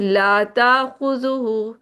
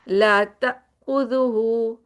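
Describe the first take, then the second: First: The vowel after the t is drawn out long. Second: The vowel after the t is clipped short. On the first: The speaker calls it wrong. "ता नहीं है ये त त त" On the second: The speaker calls it right. "तो ता को जल्दी से पढ़ लें"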